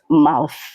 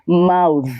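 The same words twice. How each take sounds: First: The th sound is voiceless. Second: The th sound is voiced. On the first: The speaker calls it wrong. "not mouth" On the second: The speaker calls it right. "when it is pluralized, it takes the v sound. It becomes mouth"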